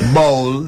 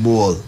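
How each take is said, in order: First: The B sound is heavy and forceful. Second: The B sound is light and soft. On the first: "you have to get a heavy B sound" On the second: "If you listen to the Barbadian accent, it's pretty light. So the the B's, they would say like ball"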